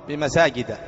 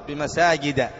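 Both takes have the same delivery.

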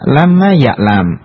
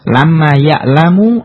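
First: The last word ends on a consonant, no vowel. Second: The last word ends with a short u vowel. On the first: The speaker calls it right. "Ya'lam i'rabnya majzum dengan tanda sukun" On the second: The speaker calls it wrong. "tidak boleh kita membaca lamma ya'lamu ... Ini salah"

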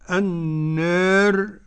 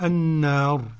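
First: The long vowel is partly fronted toward e. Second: The long vowel is an open a. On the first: "قرأ النار بالتقليل كده ورش" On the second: "والباقون بالفتح"

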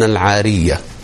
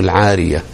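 First: The y sound is short and single. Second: The y sound is doubled and held longer.

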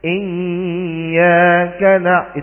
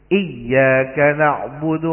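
First: The doubled y is held far too long. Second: The doubled y is held briefly and clearly. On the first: The speaker calls it wrong. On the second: The speaker calls it right.

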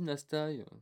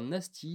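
First: The word ends with an 'eye' sound. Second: The word ends with an 'ee' sound. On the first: "On dit pas Nastai" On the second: "Je vais dire Nasty"

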